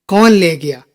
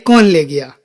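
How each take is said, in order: Both takes have the same delivery.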